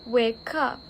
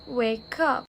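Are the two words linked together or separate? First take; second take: linked; linked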